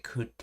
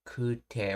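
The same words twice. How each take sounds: First: Kute with a short u, held t; common casual form. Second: Kute with a lengthened u; long vowel. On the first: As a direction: clip the u in kute before the t. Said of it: "or more commonly". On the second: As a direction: stretch the u in kute. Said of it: "elongation rule". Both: Shown as a demonstration.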